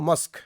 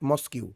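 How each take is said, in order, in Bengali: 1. শব্দটি শেষে 'k' ধ্বনিতে স্পষ্টভাবে শেষ হয়। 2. শেষে একটা অতিরিক্ত 'kyoo' সিলেবল যোগ হয়। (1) "উচ্চারণ আমরা বলবো মস্ক" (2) "ইটস নট মস্কিউ"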